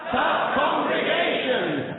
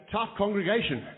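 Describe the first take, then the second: First: Shouted, high and stretched out; loud slow call. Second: Said in the usual way. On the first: Shown as a demonstration. Host leading the audience in a slow shouted reply. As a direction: roar it for the crowd. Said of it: "Let's just try that now". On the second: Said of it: "you all say".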